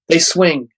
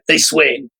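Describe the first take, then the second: First: It is said in a plain, normal voice. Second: It is said in a rough, growly voice.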